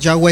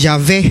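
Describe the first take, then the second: First: The middle consonant is a w sound. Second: The middle consonant is a b-like sound. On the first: The speaker calls it wrong. "Yahweh es equivocado porque no existe la W en el hebreo" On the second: The speaker calls it right. "Es la B. Es Yahvé"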